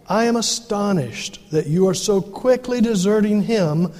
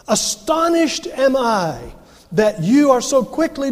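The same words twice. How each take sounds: First: Said in the usual way. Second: Astonished fired off first, higher and slower like a firecracker; stress on Astonished. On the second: Shown as a demonstration. Preacher shows the congregation Paul's emphatic word order, punching Astonished. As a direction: lead with Astonished and punch it high. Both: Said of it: "He, he puts it in the emphatic position".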